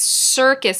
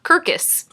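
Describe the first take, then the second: First: The first sound is an S sound. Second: The first sound is a K sound. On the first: The speaker calls it right. "before an I, E, I, or Y, it says S" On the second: The speaker calls it wrong. "not Kirkus"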